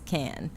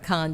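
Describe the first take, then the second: First: The vowel sounds like 'an' in can. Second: The vowel sounds like 'on' in con. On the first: The speaker calls it right. "It's can" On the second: The speaker calls it wrong. "it's not con like a con job"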